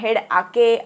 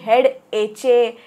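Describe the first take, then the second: First: The second part is read as ah-kay. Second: The second part is read as etch-ay. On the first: "असं काही वाचायचं नाही आहे" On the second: "असं काही वाचायचं नाही आहे"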